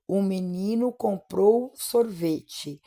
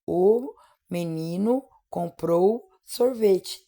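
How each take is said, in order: First: "o menino comprou sorvete" slow but joined as one sentence; example sentence, slowly. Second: "O / menino / comprou / sorvete", slow, a clear pause after each word. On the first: Teacher giving an example sentence, "o menino comprou sorvete" slow and connected. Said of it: "contar quantas palavras tem numa frase". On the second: Teacher counting words in a sentence, "O menino comprou sorvete" word by word. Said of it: "Quantas palavras tem dentro dessa frase?". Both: Shown as a demonstration.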